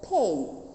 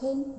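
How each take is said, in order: First: The vowel is said long. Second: The vowel is said short. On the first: The speaker calls it right. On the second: The speaker calls it wrong. "not the short one, not pain"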